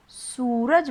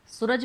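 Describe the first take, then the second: First: सूरज with a long, held "sooo". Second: सूरज with a quick, short "su-raj". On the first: Teacher shows how you do say it, vowel stretched. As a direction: draw out the first vowel of सूरज. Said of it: "आप उसे सूरज बोलते हैं". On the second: Teacher shows the word as it isn't said, vowel shortened. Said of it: "उसमें छोटे ऊ की मात्रा लगती". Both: Shown as a demonstration.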